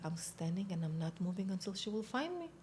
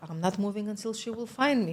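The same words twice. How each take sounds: First: Quiet, straight-faced insistence; deadpan serious. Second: Firm insistence. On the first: Recruit explains herself to the psychiatrist, quietly deadpan. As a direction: say it softly, as if in earnest. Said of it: "I need to be serious". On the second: Recruit answers the doubting psychiatrist, firmly insistent. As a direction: insist on it in one brisk run. Repeats her stance when challenged. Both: Retold or imitated.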